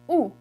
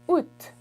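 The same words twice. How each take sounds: First: It is said as plain 'ou' only. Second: It ends with an audible T sound. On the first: "the way I say it ... Just août" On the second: "instead of saying ou, you add a T at the end"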